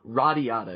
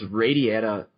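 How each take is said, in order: First: The name is pronounced with Japanese sounds. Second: The name is pronounced with English sounds.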